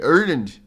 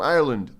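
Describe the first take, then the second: First: Ireland with the first vowel squashed to "Ur"; altered Ireland. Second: Said in the usual way. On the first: Acted. Streamer playing with a viewer's country, Ireland said as "URR-lund". Restarts and says Ireland differently.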